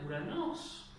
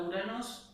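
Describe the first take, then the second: First: URANOS with pitch leaping up on the last syllable; rising tonal accent. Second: Said in the usual way. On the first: Shown as a demonstration. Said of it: "un griego clásico diría ... y subiría el tono".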